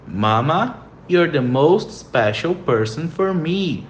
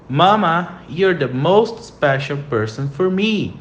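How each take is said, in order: First: Mama, you're the most special person for me, slowly repeated; slow model sentence again. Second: Mama, you're the most special person for me said slowly, most stressed; slow model sentence. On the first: (frase modelo repetida devagar) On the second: (frase modelo lenta) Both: Shown as a demonstration. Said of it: "Próxima frase".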